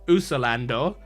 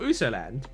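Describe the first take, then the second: First: The name ends with an added final vowel. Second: The name ends with a solid d sound. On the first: This is the Japanese way of saying it. "we don't call him Usolando" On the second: This is the English way of saying it. "we call him Usoland"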